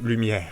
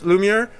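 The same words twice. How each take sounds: First: The name is said in a heritage-language accent. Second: The name is said in a plain everyday way. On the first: "if I go with my roots, the deep inside me, I'd call you Lumiere" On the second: "Am I pronouncing it okay?"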